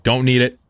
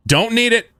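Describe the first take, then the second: First: Said in the usual way. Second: High, loud excited yell; excited shout. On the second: Real, not acted. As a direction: shout it out gleefully.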